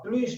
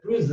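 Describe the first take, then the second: First: The word ends with a clear S sound. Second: The word ends with a Z sound linked onward. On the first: "C'est pour ça qu'on prononce o S" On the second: "você ouve o som Z"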